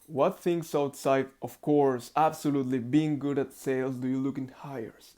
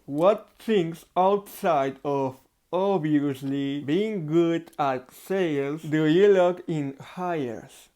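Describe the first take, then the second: First: Said in the usual way. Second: Slow, muffled words around a pencil in the mouth; slow pencil-in-mouth practice reading; speaking through a pencil. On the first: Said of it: "you talk very, very clean". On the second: Shown as a demonstration. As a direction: read the question with a pen between your teeth. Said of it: "for example".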